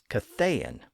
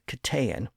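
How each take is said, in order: First: The middle consonant is a TH sound. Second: The middle consonant is a plain T sound.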